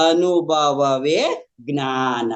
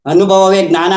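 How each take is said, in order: First: Measured, lingering delivery of a teaching; slow, drawn-out maxim. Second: Louder and higher, at normal pace; loud, emphatic maxim. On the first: Quoting the guru's teaching to listeners, slowly drawn out. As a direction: stretch every syllable very slowly. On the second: Repeating the guru's teaching to listeners, loud and emphatic. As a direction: drive the teaching home forcefully. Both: Retold or imitated.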